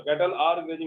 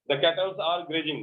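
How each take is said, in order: First: "cattle are grazing" said slowly and clearly; correct form, slow. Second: Said in the usual way. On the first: Shown as a demonstration. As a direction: give the right form slowly. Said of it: "cattle are grazing होगा". ("cattle are grazing" धीरे और साफ़) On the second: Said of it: "मत बोल देना गलती से".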